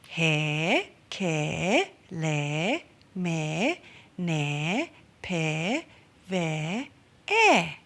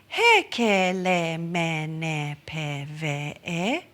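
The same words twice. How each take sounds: First: Each vowel is long. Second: Each vowel is short. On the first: "Now let's do it with the kahako" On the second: "combining those consonants with the vowel e"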